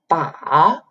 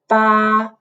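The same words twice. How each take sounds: First: The pitch dips down first, then rises. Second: The pitch stays level and flat throughout. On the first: "you go down a little bit and then go up" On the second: "which usually make a tone flat"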